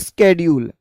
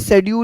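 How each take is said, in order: First: It is said the American way. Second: It is said the British way.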